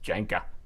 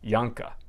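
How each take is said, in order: First: The name is said with an English pronunciation. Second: The name is said with a German pronunciation. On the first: The speaker calls it wrong. "his last name is not pronounced Janka" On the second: The speaker calls it right. "in German, his name would be pronounced Janka"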